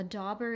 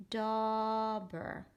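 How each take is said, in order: First: Said in the usual way. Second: DAUBER slowly, with a long held aw; read across demo. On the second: Shown as a demonstration. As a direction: stretch the first syllable of "Dauber", then glide into ber. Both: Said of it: "gonna read it across".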